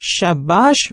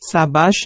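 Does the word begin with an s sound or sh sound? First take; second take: sh sound; s sound. First: The word begins with an sh sound. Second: The word begins with an s sound. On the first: The speaker calls it right. "પણ શાબાશ બોલાય" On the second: The speaker calls it wrong. "સાબાશ નહીં"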